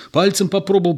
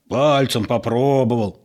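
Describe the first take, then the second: First: Quick, higher-pitched self-justification; hurriedly explain, a bit at a loss; flustered, rapid excuse; bewildered excuse. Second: Mockingly stretched imitation; mocking mimicry. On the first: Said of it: "растерянно говорил Егор". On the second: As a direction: parrot the excuse back with contempt. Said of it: "передразнил Петро". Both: A narrator's reading.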